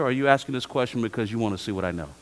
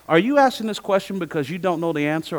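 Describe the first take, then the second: First: Faster, dropping second half; quicker pointed second option. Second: Said in the usual way. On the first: Retold or imitated. Professor challenging a student's motive, quick and lower. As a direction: rush the pointed alternative home. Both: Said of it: "I'll say".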